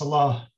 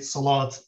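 First: The word ends in a vowel without t. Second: The word ends with a clear t sound. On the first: This is the classical pronunciation. "proper classical salah. Arabic pronunciation is salah" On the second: This is the common present-day pronunciation. "we very often say salat these days with the final T"

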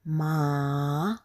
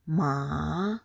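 Both takes have the same delivery.

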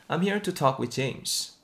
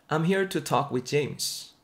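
Both takes have the same delivery.

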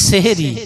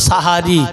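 First: The word is said as 'sehri' with an e vowel. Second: The word is said as 'sahari' with an a vowel. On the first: The speaker calls it wrong. "আমরা বলি সেহরি, সেহরিটা সঠিক উচ্চারণ নয়" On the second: The speaker calls it right. "উচ্চারণ হলো সাহারি"

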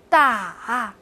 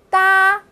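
First: The syllable is said with a low dipping tone. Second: The syllable is said with a high level tone. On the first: "哒的四声" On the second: "哒的四声"

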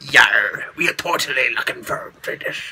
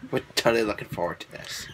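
First: It is said in a put-on pirate voice. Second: It is said in her normal voice.

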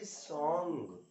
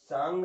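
First: The vowel is a rounded 'o' sound. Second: The vowel is an open 'aa' sound. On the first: The speaker calls it right. "बल्कि सॉन्ग है ना" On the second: The speaker calls it wrong. "सांग नहीं"

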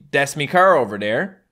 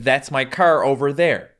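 First: The word before car sounds like me. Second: The word before car sounds like my. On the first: "In Newfoundland, we don't say my, we say me" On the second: "instead of"

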